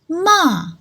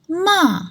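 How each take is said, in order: First: The pitch falls from high to low. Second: The same.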